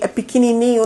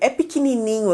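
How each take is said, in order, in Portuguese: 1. É dito com voz monótona e sem energia. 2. É dito com voz animada e cheia de energia. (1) "Com tom de voz assim" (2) "agora a diferença"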